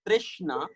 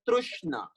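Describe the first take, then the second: First: Trishna said "TRISH-na". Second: Trishna said as Trushna, "TRUSH-na". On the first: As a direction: say Trishna with an i after the r. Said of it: "R I sound". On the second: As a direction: say Trushna with a u after the r. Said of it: "Some people call it as". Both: Shown as a demonstration.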